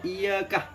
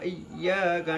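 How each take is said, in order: First: The y sound is short and single. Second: The y sound is doubled and held. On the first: It addresses the sun, which would be idolatry. The speaker calls it wrong. "Kalau membaca surat Al-Fatihah ini iyyakah kepada matahari" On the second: It addresses God alone. The speaker calls it right. "iya-nya itu ditatif"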